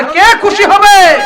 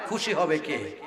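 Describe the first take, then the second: First: High, loud rousing question; louder. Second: Said in the usual way. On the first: Real, not acted. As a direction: call it out so the whole crowd answers. (আরো জোরে, উঁচু গলায় প্রশ্ন) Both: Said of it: "আরো জোরে".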